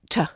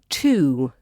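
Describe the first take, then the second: First: The vowel is reduced and quickly pronounced. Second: The vowel is full and clearly pronounced.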